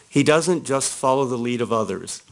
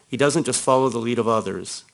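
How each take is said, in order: First: It is read at a slower pace. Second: It is read at a fast pace.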